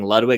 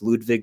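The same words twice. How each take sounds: First: The name is said with an English pronunciation. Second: The name is said with a Swedish pronunciation. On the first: The speaker calls it wrong. "I pronounced it wrong. I was saying Ludwig" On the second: The speaker calls it right. "Apparently, it's Ludwig because he's Swedish"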